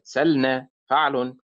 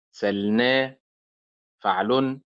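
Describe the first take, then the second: First: سلنا with the stress on سل; wrong stress, first syllable. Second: سلنا with the stress on نا; stress on second syllable. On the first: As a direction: punch the سل of سلنا. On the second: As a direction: lean on the نا of سلنا. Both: Shown as a demonstration. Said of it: "وليست سلنا فعل".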